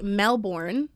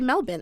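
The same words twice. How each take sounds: First: It is said the American way. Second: It is said the Australian way. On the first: "we would say Melbourne" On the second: "but they say Melbourne"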